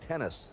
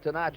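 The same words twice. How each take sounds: First: The name is said the anglicized, English way. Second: The name is said the original, non-English way. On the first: This is the name he uses now. "he has anglicized it now to Gene Tenace" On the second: This is the name he was born with. "Fury Gene Tenace is his name"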